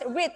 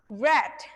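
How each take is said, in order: First: It is said as the present-tense form. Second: It is said as the past-tense form. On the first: The action is in the present. "Untuk yang verb satu, kalian baca read ya. You have to pronounce read" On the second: The action happened in the past. "For verb two and also verb three, you have to pronounce read"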